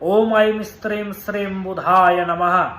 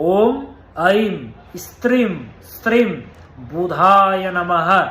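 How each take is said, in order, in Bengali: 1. মন্ত্রটি স্বাভাবিক গতিতে বলা হচ্ছে। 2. মন্ত্রটি ধীরে ও স্পষ্টভাবে বলা হচ্ছে।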